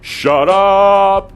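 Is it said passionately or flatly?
passionately. It is said with passion and force.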